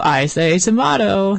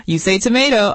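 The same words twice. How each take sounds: First: TOMATO with an open "ah" in the middle, drawn out slowly; playful, stretched "tomato" with "ah" for the "ay"; British-style tomato. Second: TOMATO with a long "ay" in the middle; playful "tomato" rhyming with potato; American tomato. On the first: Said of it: "I say tomato". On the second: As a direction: say tomato as "to-MAY-to". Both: Shown as a demonstration.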